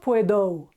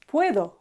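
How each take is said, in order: First: The final o glides into a u sound. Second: The final o is short and stops cleanly. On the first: The speaker calls it wrong. "it's not puedo" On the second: The speaker calls it right. "just puedo. It ends with a, once you say o, you stop"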